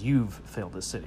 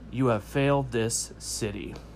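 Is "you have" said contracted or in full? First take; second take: contracted; full. First: "You have" is contracted into one syllable. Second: "You have" is said as two full words. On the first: The speaker calls it wrong. "Unless you make it a contraction" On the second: The speaker calls it right. "It's five words"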